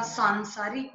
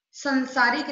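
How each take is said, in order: First: Said in the usual way. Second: संसारिक opening on short "san"; wrong short vowel. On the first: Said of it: "होता है". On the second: Shown as a demonstration. Teacher correcting a mistake, संसारिक with short first a. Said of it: "नहीं होता".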